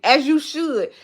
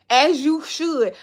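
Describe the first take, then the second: First: Said in the usual way. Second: As you should stretched slow, sassy; drawn-out as you should. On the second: Shown as a demonstration. Approving a viewer who leaves reviews, drawn out.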